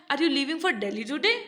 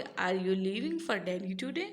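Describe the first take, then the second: First: "today" lifted into a clear rise at the end; rising tone. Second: Said in the usual way. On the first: Shown as a demonstration. Teacher contrasting a rising question with a flat one. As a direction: let "today?" climb upward like a real question. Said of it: "tone का use किया है वो कैसी tone है? Rising tone है". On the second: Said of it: "अभी आप कैसे बोलते".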